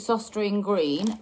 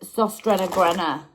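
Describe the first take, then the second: First: The name is said with plain English sounds. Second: The name is said with foreign-sounding vowels. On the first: This is how the speaker has always said it. "I've always called it" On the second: This is the pronunciation found online. "they say it's"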